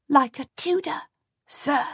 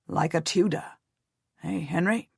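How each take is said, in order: First: Put-on higher child's voice, ending in a firm fall; a small boy proudly echoing his uncle; little boy. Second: A proud uncle coaxing his nephew; uncle Jasper. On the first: Henry answering his uncle solemnly, childlike high voice. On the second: Uncle voiced speaking to boy. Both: A narrator's reading.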